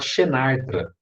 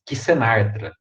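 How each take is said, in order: First: The first letter sounds like sh. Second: The first letter sounds like ks. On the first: This is the everyday Portuguese pronunciation. "Todo mundo costuma falar Xenartra, porque é assim que a gente fala em português" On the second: This is the Latin pronunciation. "se for pronunciar o nome do grupo em latim, vai ficar Xenartra"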